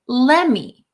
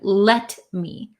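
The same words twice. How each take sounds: First: The T sound is dropped between the words. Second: The T sound is clearly pronounced. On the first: "this T kind of disappears in let me" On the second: "instead of let me"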